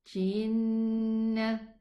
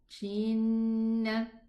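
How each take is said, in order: First: The first sound is soft, close to sh. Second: The same.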